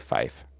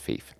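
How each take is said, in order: First: The vowel sounds like 'fie'. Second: The vowel sounds like 'fee'. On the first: The speaker calls it wrong. "I always say fife" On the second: The speaker calls it right. "But it's fief"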